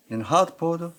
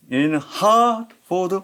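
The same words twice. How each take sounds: First: Said in the usual way. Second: Hartford with HART raised and stretched; very slow "in Hartford", lifting the stressed HART; high, long accent. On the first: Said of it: "이렇게 붙이는 걸". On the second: Shown as a demonstration. Teacher showing where accent falls, high long stress on Hartford. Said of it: "약간 높고 조금 길고".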